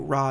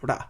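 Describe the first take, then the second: First: The consonant is a smooth English-style R. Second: The consonant is a quick tap sounding like D. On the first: The speaker calls it wrong. "when you do ra" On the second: The speaker calls it right. "it's supposed to be more like ra, like there's almost like a D uh, sound to it"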